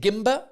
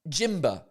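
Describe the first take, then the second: First: The word starts with a hard G sound. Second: The word starts with a J sound. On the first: It sounds like the camera gimbal. "I want to pronounce it Gimba" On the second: It sounds like ginger. "because it's ginger, I want to pronounce it Jimba"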